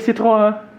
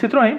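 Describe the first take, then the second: First: It is said with French pronunciation. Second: It is said with Brazilian Portuguese pronunciation. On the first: "Para pegar um francês também, seria Citroën" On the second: "a gente diz Citroën porque é muito mais fácil"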